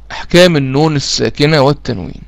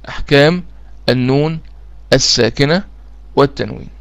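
First: Said in the usual way. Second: أحكام، النون، الساكنة، والتنوين each said alone with a short pause between; word by word. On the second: Shown as a demonstration. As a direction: split أحكام النون الساكنة والتنوين into single words like a dictation.

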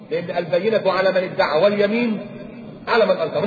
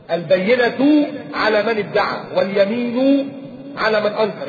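First: Said in the usual way. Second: البينة على من ادعى واليمين على من أنكر drawn out slowly, word by word; slow recitation. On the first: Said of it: "مش عندي حاجة أكتر من كده". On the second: Shown as a demonstration. Slow, weighty recitation for the audience. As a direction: recite the rule slowly so it sinks in. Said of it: "يعني إيه؟".

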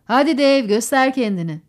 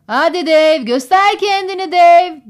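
First: Said in the usual way. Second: Loud, raised-pitch holler, drawn out at the end; shouted cheer. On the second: A narrator's reading. Eddie from the galley door urges Dave on, shouting. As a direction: yell to urge him on. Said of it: "diye bağırdı Eddie mutfağın ağzından".

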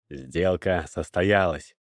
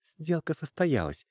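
First: Solemn, slow, low declaration; slow, lower-pitched formal pronouncement. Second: Slow, higher-pitched, clearly enunciated; slow, clear statement in a higher voice; every word distinct. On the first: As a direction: announce it solemnly, drawn out and low. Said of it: "торжественно заявил покупатель". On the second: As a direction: say it deliberately, pitched up, each word separate. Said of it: "отчётливо выговаривая каждое слово". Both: A narrator's reading.

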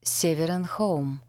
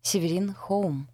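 First: «Северин Хоум» slowly, first word stressed at the start; split into parts. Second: «Северин Хоум» as surname plus Хоум, stress on РИН; the simpler reading. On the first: Narrator recalls misreading the company name, «Северин Хоум» in separated parts. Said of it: "Отдельно все три составляющие". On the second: Narrator realises the name is simple, «Северин Хоум» stressed as a surname. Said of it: "А всё намного проще". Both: A narrator's reading.

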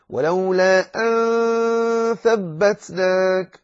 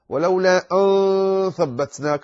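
First: ولولا أن ثبتناك with a light, thin nasal on أن before ث; slow high recitation, light ghunna; correct light ikhfa. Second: ولولا أن ثبتناك with a full heavy نّ on أن; the wrong way, heavy nasal; wrong heavy ikhfa. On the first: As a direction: sing أن thin and nasal, held long. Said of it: "لا تقل". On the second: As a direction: say أن with a thick, darkened nasal as the mistake. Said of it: "خطأ". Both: Shown as a demonstration.

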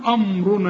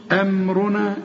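First: أمرنا with a heavy, dark first vowel before the ر; wrongly thickened vowel. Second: أمرنا with a light, clean أم before the ر; clear light أم. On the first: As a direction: let the ر darken the opening of أمرنا. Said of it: "أنت مالك ومال الراء؟". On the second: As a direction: keep the opening of أمرنا thin and distinct. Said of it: "الأول قول أم،". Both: Shown as a demonstration.

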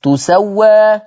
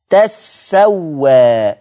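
First: "تسوى" higher, said tu-sa-wa with a light sin; ضم التاء. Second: "تسوى" drawn out as tas-sa-wa; فتح التاء وتشديد السين. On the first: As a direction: damma on the ta of "تسوى", sin not doubled. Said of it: "بضم التاء تو". ("تسوى" بضم التاء وتخفيف السين) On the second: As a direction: fatha on the ta of "تسوى", lean on the doubled sin. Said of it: "ورش يقول تا بفتح التاء". ("تسوى" بفتح التاء وتشديد السين، ببطء) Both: Shown as a demonstration.

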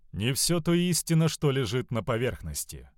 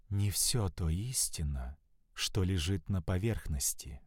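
First: Said in the usual way. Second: Slow, soft, sultry murmur in his ear; languid whisper. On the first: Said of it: "narrator repeats the phrase". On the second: A narrator's reading. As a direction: breathe it slowly and seductively. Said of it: "прошептала томно, не спеша".

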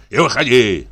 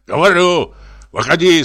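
First: Said in the usual way. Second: Barked command, loud and high; shouted order. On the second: Acted. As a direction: drunk reveller ordering them out. Drunk ordering people out.

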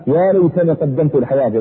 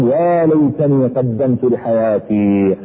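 First: Said in the usual way. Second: Drawn out very slowly, lamenting; slow mournful plea; regretful cry. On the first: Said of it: "repeat of the quote". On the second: Retold or imitated. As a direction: stretch each word like a dying man's regret. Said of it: "بدأ بعضهم يصيح ويقول".

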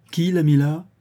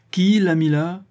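First: Higher-pitched interrogating question; pressing question. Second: High, loud repeated demand; insistent demand. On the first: Lawyer questioning cousin Henry about the will, pressing. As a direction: press the suspect for an answer. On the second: Lawyer asking silent cousin Henry once more, insistent demand. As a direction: demand an answer, raising the voice. Question repeated after no answer. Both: A narrator's reading.

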